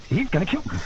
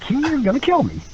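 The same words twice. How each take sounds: First: Soft mock dread; quiet, retold fearful realization; hushed dread. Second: "is" punched high; stress on "is". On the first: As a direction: say it under your breath, as if doomed. Retold dread, first of two takes. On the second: Retold or imitated. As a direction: lean hard on "is" in mock dread. Repeats it with stress on is.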